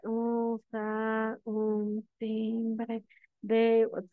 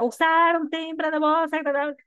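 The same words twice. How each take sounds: First: Very slow, droning monotone demo; sleep-inducing reading. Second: Loud, high-pitched shouting demo; shouted reading. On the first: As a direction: read it painfully slowly, dragging every word. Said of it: "Se durmieron todos, nadie escuchó absolutamente nada". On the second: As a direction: read it out as a yell, far too loud. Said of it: "Tampoco puedo hacerlo grito". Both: Shown as a demonstration.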